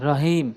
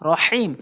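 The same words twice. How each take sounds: First: The h is a plain light h sound. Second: The h is a deep throat h sound. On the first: The speaker calls it wrong. "আমরা বলি রহিম" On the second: The speaker calls it right. "বরহা উচ্চারণ করতে হবে"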